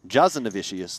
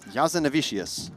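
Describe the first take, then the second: First: The name begins with a J sound. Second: The name begins with a Y sound. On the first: "could be a hard J" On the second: "I'm assuming the J is silent"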